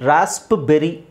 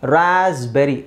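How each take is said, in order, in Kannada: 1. p sound ಸ್ಪಷ್ಟವಾಗಿ ಉಚ್ಚರಿಸಲಾಗಿದೆ. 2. p sound ಬಿಟ್ಟುಹೋಗಿದೆ. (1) "ಅಂತ ಹೇಳಲ್ಲ" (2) "ಇಲ್ಲಿ ಮಾತ್ರ ಪಿ ಸೈಲೆಂಟ್ ಆಗುತ್ತೆ"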